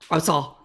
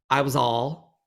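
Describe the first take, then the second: First: The words run together quickly into two syllables. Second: Each word is said clearly and separately.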